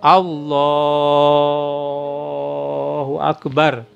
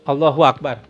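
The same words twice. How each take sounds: First: It is drawn out slowly and long. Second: It is said quickly and short.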